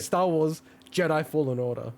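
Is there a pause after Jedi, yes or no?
no. There is no pause after Jedi.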